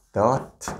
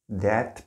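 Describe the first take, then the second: First: That said short with a rising close, like dot; a quick light that, rising; weak that. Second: That said fuller, like det, rising; the pronunciation That is not meant to have; contrasting that. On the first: Teacher modelling the conjunction that for students, light and short. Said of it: "이렇게 발음이 됩니다". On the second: Teacher giving the pronunciation to avoid, fuller and rising. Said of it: "That 발음이라는 게 아니고요". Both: Shown as a demonstration.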